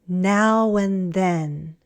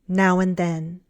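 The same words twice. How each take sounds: First: The phrase is said slowly. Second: The phrase is said faster. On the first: "first slowly" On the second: "and then faster"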